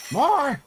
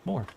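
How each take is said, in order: First: High excited yell for more; shouting. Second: Said in the usual way. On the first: Real, not acted. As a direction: shout it out, demanding. Calling for more, louder.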